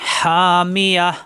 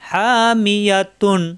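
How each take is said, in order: First: The word ends with a short h sound. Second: The word ends with a nasal tun sound. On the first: The recitation stops at this word. "থামলে লাস্টের অক্ষরে সাকিন হয়ে যাবে তখন এই গোলটা হা হয়ে যাবে" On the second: The recitation continues without stopping. "এখানে পাইছি স্টেশন থামবো"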